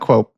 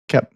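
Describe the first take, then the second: First: The name is said with an 'o' vowel sound. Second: The name is said without the 'o' vowel sound. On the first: The speaker calls it wrong. "Not Quope" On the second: The speaker calls it right. "we don't pronounce the O"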